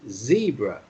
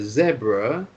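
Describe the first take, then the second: First: It is said with an American pronunciation. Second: It is said with a British pronunciation.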